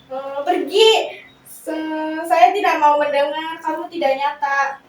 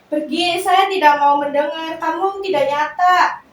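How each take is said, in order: First: It is said hesitantly, without much force. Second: It is said firmly, with more force.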